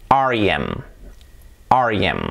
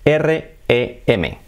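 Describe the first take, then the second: First: "R E M" said as ar-i-em; English-style ar-ee-EM; English letter names. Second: "R E M" as Spanish erre, e, eme, slowly; slow Spanish spelling, erre-e-eme; letter by letter. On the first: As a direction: spell R E M in English, smoothly joined. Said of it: "En inglés". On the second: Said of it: "se dice letra por letra". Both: Shown as a demonstration.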